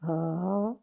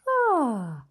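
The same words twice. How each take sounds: First: The sigh is pitched low. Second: The sigh is pitched in the middle. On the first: "start low" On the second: "and then go higher"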